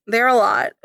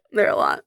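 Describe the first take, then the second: First: Said in the usual way. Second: Much lower mock-deep echo; deep repeat. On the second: Echoing her own words in a mock-deep voice. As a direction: drop the voice way down for the echo.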